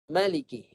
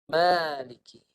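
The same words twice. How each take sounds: First: The first vowel is short. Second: The first vowel is long. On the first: The reading drops the alif. "dibuang alif" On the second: The reading keeps the alif. "dengan mengekalkan alif"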